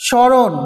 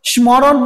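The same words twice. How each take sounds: First: স্মরণ as "sho-ron", no m; silent m. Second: স্মরণ as "shmo-ron", m audible; wrongly sounded m. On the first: Teacher answering how we pronounce it, স্মরণ as "sho-ron". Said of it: "আমরা কি উচ্চারণ করি এটাকে". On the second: Teacher asking class if we said ম, স্মরণ as "shmo-ron". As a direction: say স্মরণ with the ম pronounced. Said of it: "ময়ের উচ্চারণ করেছি". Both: Shown as a demonstration.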